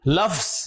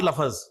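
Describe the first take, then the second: First: It is said as one syllable, lafz. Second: An added vowel makes it two syllables, lafaz. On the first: The speaker calls it right. "लफ्ज, लफ्ज" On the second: The speaker calls it wrong. "Not लफज"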